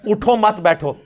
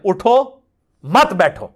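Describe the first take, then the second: First: The pause comes after the second word. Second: The pause comes after the first word.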